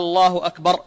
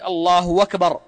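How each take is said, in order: First: The first vowel of Allah is lengthened like a question. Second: A w sound replaces the glottal stop before akbar. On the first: "يمد همزة الجلالة" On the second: "بالواو بدل الهمزة"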